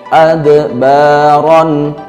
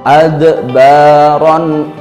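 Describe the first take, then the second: The two takes are said the same way.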